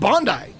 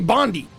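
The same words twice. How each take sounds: First: It is pronounced the way Australians say it. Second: It is pronounced the way the spelling suggests. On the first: "Australians pronounce it Bondi" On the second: "It looks like it should be Bondi"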